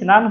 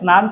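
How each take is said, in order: First: The word starts with an added 'i' vowel. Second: The word starts directly with the 's' consonant cluster.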